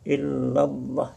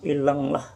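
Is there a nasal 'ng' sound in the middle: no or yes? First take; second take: no; yes. First: The middle is a plain double l sound. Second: The middle has a nasal ng sound. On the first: The speaker calls it right. "kita baca illallah" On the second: The speaker calls it wrong. "jangan ilanglah... itu bunyi eng, salah"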